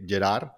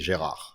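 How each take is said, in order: First: The name is said with Spanish or Catalan pronunciation. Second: The name is said with French pronunciation. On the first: "in Spanish or in Catalan, we say Gerard" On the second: "in French, they they call me Gérard"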